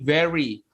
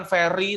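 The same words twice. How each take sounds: First: Very dibaca veri, bibir bawah digigit; very diucapkan veri; correct very with v. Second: Very dibaca feri dengan f; very diucapkan feri; wrong very with f. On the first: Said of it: "tapi very". (very dengan bunyi v) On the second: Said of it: "bukan very tapi very". (very dengan bunyi f) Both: Shown as a demonstration.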